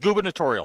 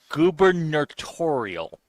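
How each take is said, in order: First: It is said at normal speed. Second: It is said slowly.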